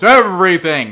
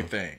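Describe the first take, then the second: First: It is said in a dramatic, epic voice. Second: It is said in a normal reading voice.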